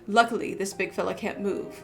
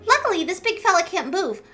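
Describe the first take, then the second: First: It is said without a Paimon voice. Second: It is said in a Paimon voice.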